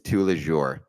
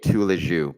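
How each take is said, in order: First: The final R sound is clearly pronounced. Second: The final R sound is left silent. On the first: The speaker calls it right. "but I guess it's tous les jours" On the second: The speaker calls it wrong. "I always say it tous les jours, because I felt like you wouldn't pronounce the the R"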